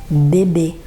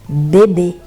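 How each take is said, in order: No difference in how they are said.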